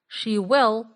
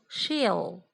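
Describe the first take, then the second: First: She and will are said as two words. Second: She and will merge into one syllable.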